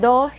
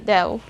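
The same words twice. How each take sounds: First: The o vowel is short. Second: The o vowel is long. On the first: The speaker calls it wrong. "Instead of saying do" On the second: The speaker calls it right. "You will hear the long O sound at the end"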